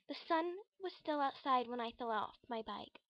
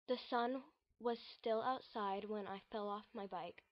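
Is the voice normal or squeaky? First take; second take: squeaky; normal. First: The voice is high and squeaky. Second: The voice is in a normal register.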